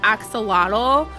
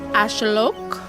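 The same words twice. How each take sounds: First: It is said with ordinary English sounds. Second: It uses sounds that are not English. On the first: This is the common westernized form. The speaker calls it wrong. "it is accepted to pronounce it as axolotl" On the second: This is closer to the original language. The speaker calls it right. "It's more accurate to say axolotl. It's using some sounds that, like, don't really exist in English"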